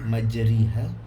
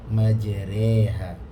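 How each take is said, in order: First: The vowel after r sounds like an i. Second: The vowel after r sounds like an e. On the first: The speaker calls it wrong. "tidak menjadi majriha" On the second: The speaker calls it right. "tetapi tengah-tengah condong majreha"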